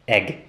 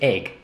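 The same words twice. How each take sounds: First: The vowel sounds close to 'eh'. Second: The vowel sounds close to 'ay'. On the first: The speaker calls it right. "the a sound should actually be eh" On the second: The speaker calls it wrong. "I pronounced the word egg incorrectly for many many years"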